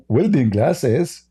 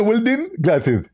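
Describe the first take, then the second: First: Said in the usual way. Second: High, lisping caricature; Zakir Naik. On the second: Acted. Mock preacher offering the host protection, high and lisping. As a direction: say it in a silly high, lispy preacher voice. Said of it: "Hey, Zakir Naik".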